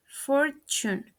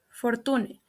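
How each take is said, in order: First: "fortune" as FOR-chun; "fortune" in two syllables, ch in the middle; correct pronunciation. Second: "fortune" as for-TOO-neh; "fortune" in three syllables, final e sounded; mispronounced. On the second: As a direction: say "fortune" with plain t. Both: Shown as a demonstration. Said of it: "The correct pronunciation is".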